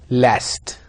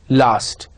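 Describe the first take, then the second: First: American "last" with a flat short a, /læst/; General American. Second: RP "last" with a long broad a, /last/; British RP. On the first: Teacher modelling American "last" for the class. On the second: Teacher modelling RP "last" for the class. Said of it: "R P". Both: Shown as a demonstration.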